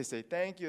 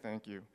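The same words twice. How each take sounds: First: Higher, softer parental prompt. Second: Put-on low, quiet, half-hearted child's thanks; token thanks. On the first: Retold or imitated. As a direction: imitate a parent cueing a child's manners. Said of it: "and we say". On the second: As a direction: imitate a kid mumbling a dutiful reply. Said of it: "they're like".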